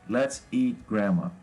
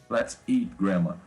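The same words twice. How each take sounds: The two takes are said the same way.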